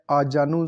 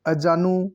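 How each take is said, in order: First: आजानु with long first aa; correct pronunciation. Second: अजानु with short first a; wrong pronunciation. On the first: Teacher confirming the form, आजानु with long aa. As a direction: say आजानु as "aa-jaa-nu". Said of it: "सही लिखा गया है". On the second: Teacher marking the error, अजानु with short a. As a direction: say अजानु as "a-jaa-nu". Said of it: "गलत है". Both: Shown as a demonstration.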